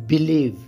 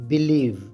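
Both takes have the same delivery.

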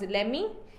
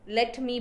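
First: The two words are blended into one reduced word. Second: The two words are said fully and separately. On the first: The speaker calls it wrong. "blending words improperly" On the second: The speaker calls it right. "let me becomes lemmy"

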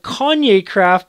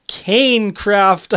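First: The first part is said like 'Kahn-yay'. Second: The first part is said like 'Cain'. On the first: The speaker calls it wrong. "I've been calling it" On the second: The speaker calls it right. "but now I realized it's"

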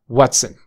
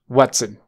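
No difference in how they are said.

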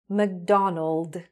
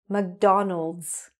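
First: The name ends without an s sound. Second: The name ends with an s sound. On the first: The speaker calls it wrong. "So without the S" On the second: The speaker calls it right. "with the S, the way it should be"

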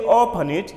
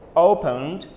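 First: The word ends with an extra 'id' syllable. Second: The word ends with a plain 'd' sound. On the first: The speaker calls it wrong. "Don't say open it" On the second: The speaker calls it right. "you say opened, We end it with D only"

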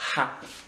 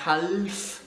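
First: The L sound is silent. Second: The L sound is pronounced. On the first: The speaker calls it right. "On ne prononce pas le L" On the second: The speaker calls it wrong. "c'est pas half, non, non"

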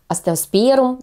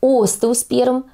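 First: The stress falls on a later syllable. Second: The stress falls on the first syllable. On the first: The speaker calls it wrong. "а не остеосперум" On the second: The speaker calls it right. "Именно с ударением на первый слог «о»"

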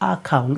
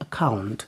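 First: The first vowel is said as a full vowel. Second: The first vowel is reduced to a weak schwa. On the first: The speaker calls it wrong. "We don't say account" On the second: The speaker calls it right. "we say account"

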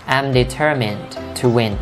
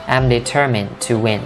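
The two takes are said the same way.

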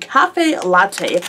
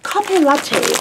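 First: It is said with an English pronunciation. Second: It is said with a Korean pronunciation.

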